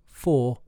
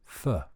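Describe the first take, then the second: First: The vowel is full, like the number four. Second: The vowel is short and reduced. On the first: The speaker calls it wrong. "not for like the number" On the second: The speaker calls it right. "it's pronounced for"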